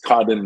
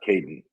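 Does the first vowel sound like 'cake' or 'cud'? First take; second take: cud; cake. First: The first vowel sounds like in 'cud'. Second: The first vowel sounds like in 'cake'. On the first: The speaker calls it right. "I believe it is Cudden" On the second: The speaker calls it wrong. "not Caden"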